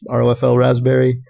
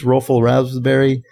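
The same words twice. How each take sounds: First: R O F L letter by letter; acronym spelled out. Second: ROFL said as one word; acronym as a word. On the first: Re-reading a listener's flavor name, R O F L spelled out. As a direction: spell out R O F L before raspberry. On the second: Reading out a listener's flavor name, rofl as a word. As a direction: pronounce rofl like a single word. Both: Real, not acted. Same name read two ways.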